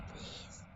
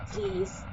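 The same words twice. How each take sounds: First: Please barely whispered, much softer; fainter whisper. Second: Breathy whispered please. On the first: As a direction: let the please almost vanish. Michael begging again, fainter. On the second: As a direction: plead in a whisper. Michael begging her to stay. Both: Acted.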